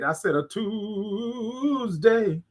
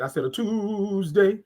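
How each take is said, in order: First: "Tuesday" stretched very slowly and savoured; slow it right down and linger on "Tuesday"; drawn-out emphatic repeat. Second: Said in the usual way. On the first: Shown as a demonstration. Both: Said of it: "that's what I said".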